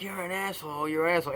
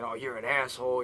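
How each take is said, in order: First: Put-on childish taunt, "asshole" slightly higher; teasing. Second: Said in the usual way. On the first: Shown as a demonstration. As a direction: tease like a kid in the schoolyard. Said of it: "in a teasing way". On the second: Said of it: "but say it in a way".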